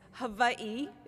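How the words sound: It is said with a Hawaiian-style pronunciation. This is the form for speaking to Hawaiians. "if you're speaking to a Hawaiian"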